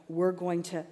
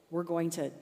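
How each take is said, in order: Both takes have the same delivery.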